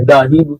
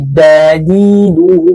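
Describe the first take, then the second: First: The rushed wrong "da didu"; wrong pronunciation. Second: "da didu" slow and flowing, cleanly bounced; the slow smooth "da didu"; correct pronunciation. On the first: Teacher shows students the wrong clipped da didu. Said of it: "bukan da didu". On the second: Teacher shows students the correct flowing da didu. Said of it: "tapi da didu". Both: Shown as a demonstration.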